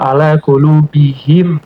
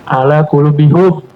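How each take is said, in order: First: The final syllable has an i vowel, him. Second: The final syllable has a u vowel, hum. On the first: The vowel matches the preceding i sound. The speaker calls it right. "Kulubihim karena lebih uh, enak di dalam bacanya" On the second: The vowel does not match the preceding sound. The speaker calls it wrong. "Karena kalau kulu bihum cocok nggak? Nggak enakan"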